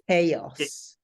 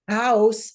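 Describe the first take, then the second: First: The word is pronounced the English way. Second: The word is pronounced the Spanish way. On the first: "in English, we say chaos" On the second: "is the Spanish pronunciation"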